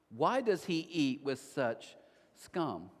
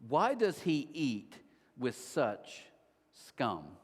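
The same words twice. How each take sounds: First: Slow repeat. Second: Slow, contemptuous, falling to a low "scum"; scornful Pharisees sneering at sinners; harsh. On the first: Shown as a demonstration. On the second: Retold or imitated. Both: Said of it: "think how harsh this is".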